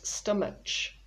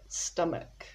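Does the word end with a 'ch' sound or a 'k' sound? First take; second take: ch; k. First: The word ends with a 'ch' sound. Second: The word ends with a 'k' sound. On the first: The speaker calls it wrong. "People often pronounce this stomach, but the H at the end is silent" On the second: The speaker calls it right. "So we've got stomach"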